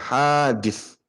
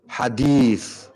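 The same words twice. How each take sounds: First: The first vowel, after the h, is long. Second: The second vowel, after the d, is long. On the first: It means something newly created. "Ini bahasa hadis ini haknya panjang ya" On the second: It means a report of the Prophet. "dalnya yang panjang"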